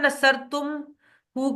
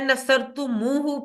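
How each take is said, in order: First: The syllables tum and hu are joined directly. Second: An extra u vowel links tum and hu. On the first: The speaker calls it wrong. "की बजाय" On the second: The speaker calls it right. "पढ़ा जाता है, क्योंकि अरबियों ने उसको इसी तरह से किया बोलने में आसानी के लिए"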